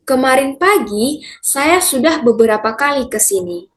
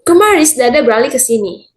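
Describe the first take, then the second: First: It is spoken at a normal pace, clearly articulated. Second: It is spoken very fast with syllables swallowed.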